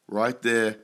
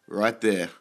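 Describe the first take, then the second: No difference in how they are said.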